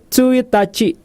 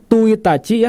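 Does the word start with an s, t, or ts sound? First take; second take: ts; t. First: The word starts with a ts sound. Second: The word starts with a plain t sound. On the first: The speaker calls it right. "tapi Tsuitachi" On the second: The speaker calls it wrong. "bukan Tuitachi ya"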